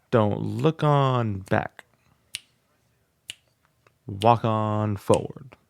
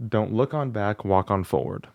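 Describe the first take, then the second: First: Slow, each word stretched and emphasized; rhythmic musical speaking. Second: Said in the usual way. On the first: Shown as a demonstration. Student demos the lyric as slow musical speech. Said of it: "it sounds like a, a rhythm". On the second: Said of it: "The words of their mini song is".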